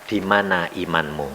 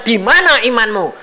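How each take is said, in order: First: Low, soft "Di mana imanmu?" as God asking; a calm, quiet divine question, "Di mana imanmu?"; quiet rebuke. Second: "Di mana imanmu?" higher, stress on "mana"; preacher hitting "mana" in "Di mana imanmu?"; pointed question. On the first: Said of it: "Tuhan berkata apa?". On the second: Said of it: "waktu ditanya Tuhan". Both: Retold or imitated.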